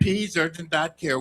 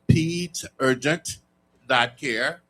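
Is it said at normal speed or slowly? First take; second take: normal; slowly. First: It is said at normal speed. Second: It is said slowly and deliberately.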